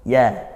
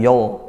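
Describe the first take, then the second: First: The ya sound is thin and light. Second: The ya sound is thick and rounded. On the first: The speaker calls it right. "ya-nya tipis" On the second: The speaker calls it wrong. "Bukan yo"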